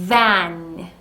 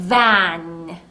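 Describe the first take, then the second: First: The first sound is a long buzzing hiss. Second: The same.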